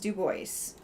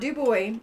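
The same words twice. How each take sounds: First: The final S is sounded. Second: The final S is silent. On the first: The speaker calls it right. "you have to pronounce the S" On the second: The speaker calls it wrong. "It is not Du Bois"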